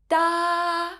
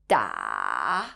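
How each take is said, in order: First: The pitch stays high and level. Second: The pitch dips low, then rises again. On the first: "is a high flat tone" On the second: "falling down first before going back up"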